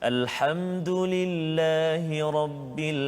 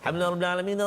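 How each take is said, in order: First: It is recited slowly and calmly. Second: It is recited quickly and hurriedly. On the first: The reader reflects on the meaning. The speaker calls it right. "Kita baca tenang saja" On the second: The reader cannot reflect on the meaning. The speaker calls it wrong. "Kalau kita baca laju-laju"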